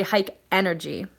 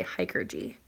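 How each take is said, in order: First: "hike energy" as two full words; the name misread as "hike energy". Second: "hiker G" ending on the letter G; the name said carefully as "hiker G"; intended pronunciation. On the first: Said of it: "I always say hike energy". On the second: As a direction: say "hiker G", hiker plus a separate gee. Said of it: "I try to say hiker G". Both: Shown as a demonstration.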